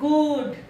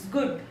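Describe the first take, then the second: First: The vowel is drawn out long. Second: The vowel is clipped short. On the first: The speaker calls it wrong. "It's not good" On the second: The speaker calls it right. "It's short U"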